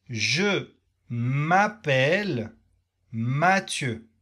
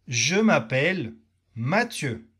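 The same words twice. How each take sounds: First: "Je m'appelle Mathieu" said slowly, with a long pause after "Je m'appelle"; slow model for repeating. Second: Said in the usual way. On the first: Shown as a demonstration. Teacher giving students a slow model sentence to repeat. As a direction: stretch "Je m'appelle" so learners can echo it. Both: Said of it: "Tu répètes cette phrase avec moi".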